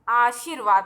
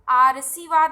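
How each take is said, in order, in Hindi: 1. r की ध्वनि vaad अक्षर से पहले आती है। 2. r की ध्वनि shi अक्षर से पहले आती है। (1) "आशीर्वाद होता है" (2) "तो आरसीवाद नहीं होता है"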